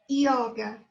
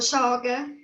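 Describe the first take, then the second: First: It starts with a vowel like 'i'. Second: It starts with a consonant like 'j' or 'sh'. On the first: The speaker calls it right. "La Y em português é I" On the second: The speaker calls it wrong. "Não é joga ou joga, como, como Argentina"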